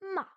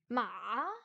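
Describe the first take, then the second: First: The pitch starts high and drops sharply. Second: The pitch dips very low, then rises. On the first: "c'est celui qui part du haut et qui descend tout d'un coup" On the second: "Le troisième ton, c'est ma"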